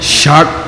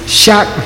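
First: The word is said with a low tone. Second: The word is said with a high tone. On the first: It means a full day of 24 hours. "I'll see you in 24 hours" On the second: It means a monk's room. "Monk's room"

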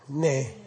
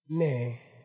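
First: The vowel is cut short. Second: The vowel is held a little longer. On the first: "That's a Ne cut short" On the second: "A little bit longer"

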